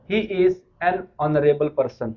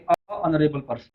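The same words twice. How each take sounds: First: Slow, careful "He is an honorable person", article "an" before the silent h; correct "an honorable". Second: Slow demo of the mistake "a honorable person", plain "a" before honorable; wrong "a honorable". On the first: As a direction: spell it out slowly with "an", honorable said without h. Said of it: "जैसे बोलेंगे". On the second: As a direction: show the error slowly, "a" then honorable. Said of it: "ना कि". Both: Shown as a demonstration.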